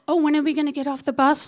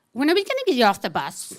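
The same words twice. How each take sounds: First: Higher, louder, rapid mimicking; mocking echo. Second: Quick put-out question; impatient passenger. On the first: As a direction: throw her question back at her mockingly. Driver mockingly repeats her question. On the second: Retold or imitated. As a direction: ask it fast, as the inconvenienced passenger. Inconvenienced girl asks the driver.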